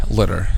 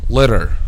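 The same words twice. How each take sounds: The two takes are said the same way.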